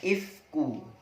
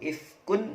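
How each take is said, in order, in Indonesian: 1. Kata itu diakhiri vokal, tanpa n. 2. Kata itu diakhiri bunyi n. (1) "dibaca ifku" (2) "ifkun dibaca ifku"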